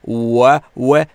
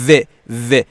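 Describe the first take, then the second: First: The sound is a w with rounded lips. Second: The sound is a v with teeth on lip. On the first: The speaker calls it right. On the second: The speaker calls it wrong. "میگن"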